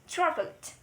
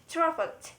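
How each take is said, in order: The two takes are said the same way.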